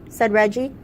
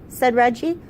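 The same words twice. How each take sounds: Both takes have the same delivery.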